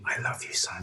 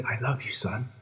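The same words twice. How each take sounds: First: Soft whisper to a sleeping son. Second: Said in the usual way. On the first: Retold or imitated. Father whispering to sleeping son, hushed whisper. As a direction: breathe it without voice. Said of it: "I whisper to him".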